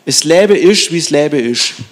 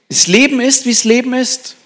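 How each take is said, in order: First: It is spoken in a Swabian dialect accent. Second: It is spoken in a standard German accent.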